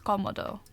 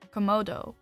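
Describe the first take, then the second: First: The stress is on the first syllable. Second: The stress is on the second syllable. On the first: The speaker calls it right. "It's Komodo. ... Because, of course, the accent" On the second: The speaker calls it wrong. "I would pronounce this as um, Komodo, like the Komodo dragon, but it's not"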